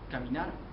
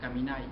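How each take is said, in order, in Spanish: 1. La palabra termina en sonido R. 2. La palabra termina en sonido I.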